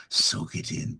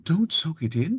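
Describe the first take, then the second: First: Breathy tempting whisper. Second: Don't leaps up high and loud with a rise; loud high warning. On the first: Jekyll side coaxing listeners to soak it in, whispered. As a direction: hush it out like a secret. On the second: Irradiated Chaos persona yelling a warning, high and loud. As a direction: shout it as a sudden alarm. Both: Acted. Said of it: "And Irradiated Chaos".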